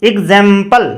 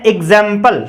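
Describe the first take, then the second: The two takes are said the same way.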